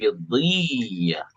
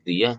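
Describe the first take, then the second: First: The y sound is doubled and held longer. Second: The y sound is short and single. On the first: The speaker calls it right. "tapi diyah. Double Y" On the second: The speaker calls it wrong. "nggak boleh diyah"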